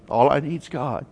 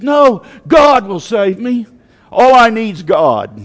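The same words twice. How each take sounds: First: Said in the usual way. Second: Loud, raised, emphatic refusal; preacher acting out stubborn faith; defiant refusal. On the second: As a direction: turn down rescue with loud conviction. Acting flood victim refusing rescue.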